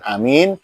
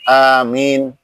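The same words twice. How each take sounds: First: The vowel in the second syllable is short. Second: The vowel in the second syllable is long. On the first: The speaker calls it wrong. "Bukan amin" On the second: The speaker calls it right. "hanya panjang, minnya panjang"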